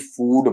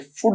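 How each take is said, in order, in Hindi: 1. स्वर लंबा है। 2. स्वर छोटा है। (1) "बड़ा ऊ का साउंड देखने को मिलेगा" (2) "फूड नहीं"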